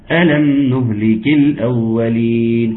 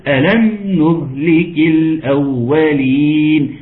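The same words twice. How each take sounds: First: ألم نهلك الأولين read flat like news, no question; flat statement. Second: ألم نهلك الأولين chanted slowly, ألم lifted as a question; questioning tune. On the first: Teacher showing the wrong statement reading. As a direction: state it, don't ask. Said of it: "كما لو كان خبر". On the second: Teacher showing the question reading. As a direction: ask it through the chant. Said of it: "سؤال". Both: Shown as a demonstration.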